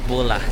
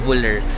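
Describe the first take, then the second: First: The name ends without an R sound. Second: The name ends with an R sound. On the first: The speaker calls it right. "Pag pinapronounce wala palang R" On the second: The speaker calls it wrong. "Hindi pala siya Buller"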